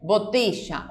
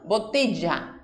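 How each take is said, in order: First: The 'll' is said like an English sh. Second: The 'll' is said like an English y. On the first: This is how speakers from the River Plate region say it. "Como de la palabra show" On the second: This is how most Spanish speakers say it. "como si fuera la Y"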